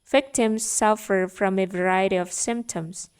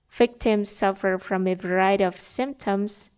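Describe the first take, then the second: No difference in how they are said.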